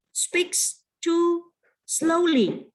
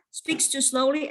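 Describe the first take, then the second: First: Drawn-out, dragging words; very slow. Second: Said in the usual way. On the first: Shown as a demonstration. Teacher illustrating a customer who speaks too slowly, very slow. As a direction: stretch each word out slowly.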